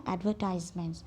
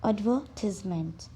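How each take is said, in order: First: It is said with an American pronunciation. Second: It is said with a British pronunciation.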